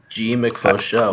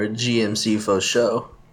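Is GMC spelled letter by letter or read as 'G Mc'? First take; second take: G Mc; spelled out. First: GMC is read as G plus Mc. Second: GMC is spelled out letter by letter. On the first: "I can't tell if it's GMC or G Mc" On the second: "I can't tell if it's GMC or G Mc"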